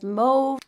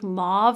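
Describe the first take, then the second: First: Mauve is pronounced the non-American way. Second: Mauve is pronounced the American way. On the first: "The rest of the world says mauve" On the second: "mauve is the way Americans say it"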